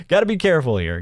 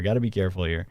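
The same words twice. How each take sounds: First: Said in the usual way. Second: Much softer and lower, half to himself; hushed aside. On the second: Shown as a demonstration. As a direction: mutter it under your breath as a mock warning. Repeats warning as a hushed aside.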